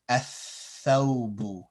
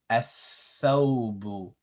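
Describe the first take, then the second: First: The L is skipped and the th is doubled. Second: The L is skipped and the th is doubled.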